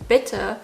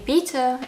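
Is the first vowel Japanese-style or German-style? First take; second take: German-style; Japanese-style. First: The first vowel is the short German i. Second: The first vowel sounds like a Japanese-style i. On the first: It is the intended German word. The speaker calls it right. "instead of bitte" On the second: It becomes a different German word. The speaker calls it wrong. "If you say bitte instead of"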